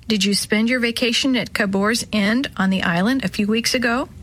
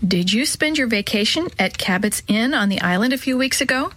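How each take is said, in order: First: Cabour's End read instead of Cabot's Inn; misread name. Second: Cabot's Inn read clearly as CAB-ot's Inn; Cabot's Inn, the t sounded and "Inn" not "End"; corrected name. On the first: Narrator reading a story misreads the name, calm read. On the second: Narrator reading a story rereads the name correctly, calm read. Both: Shown as a demonstration. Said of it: "Let me stop a minute".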